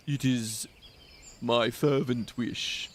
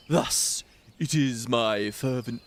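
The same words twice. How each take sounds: First: Slower, lightly voiced old man; old man voice retry. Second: A hint of an old man, slowed and unsure; old man voice attempt. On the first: Streamer retrying the Macon old man voice, very slow. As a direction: drag it out like a frail old man. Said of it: "how do you do an old man voice". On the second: Streamer trying a Macon old man voice for viewers, a faint attempt. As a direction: start a shaky try at an old man, slowly. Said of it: "I'm gonna do a Macon voice".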